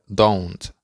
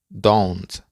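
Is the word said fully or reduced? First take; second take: fully; fully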